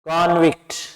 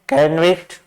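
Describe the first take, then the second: First: The first vowel is an 'o' sound. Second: The first vowel is not an 'o' sound. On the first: The word is a noun. "अगर हम लगा दे ओ की sound" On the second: The word is a verb. "कैनविक्ट verb है"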